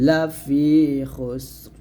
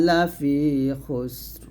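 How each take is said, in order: No difference in how they are said.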